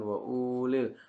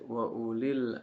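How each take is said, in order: First: The first vowel of ulil is drawn out long. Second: The first vowel of ulil is kept short. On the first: The speaker calls it wrong. "bukan wa ulil" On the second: The speaker calls it right. "Ini dibacanya pendek"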